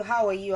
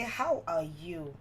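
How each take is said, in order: First: Said in the usual way. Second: Slow, deliberate "How are you?"; drawn-out asking. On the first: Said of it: "I can ask you". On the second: Shown as a demonstration. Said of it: "another way I can say".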